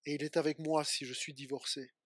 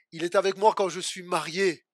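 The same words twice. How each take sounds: First: Low, soft answering line; subdued affirmation. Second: Said in the usual way. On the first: Acted. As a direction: lower the voice for the hard case. Preached contrast, bad times. (affirmation grave, à voix basse)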